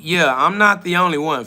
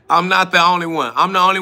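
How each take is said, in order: First: Said in the usual way. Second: Laughing through the repeat. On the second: Real, not acted. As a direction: chuckle it out, amused at him. Repeats line while laughing.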